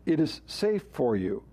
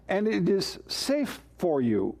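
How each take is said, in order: First: "safe" leaned on and held long; stress on safe. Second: Said in the usual way. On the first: Shown as a demonstration. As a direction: dwell on the word "safe". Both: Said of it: "which is a kind of an odd phrase".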